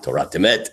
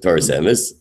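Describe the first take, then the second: First: The words end in t sounds. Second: The words end in s sounds.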